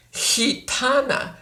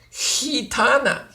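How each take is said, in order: First: Gitana with a soft breathy h start, slow. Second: Gitana with a soft h, repeated; gitana repeated softly. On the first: Teacher demonstrating soft g in gitana. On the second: Teacher repeating gitana with soft g. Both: Shown as a demonstration. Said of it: "Sometimes it's soft".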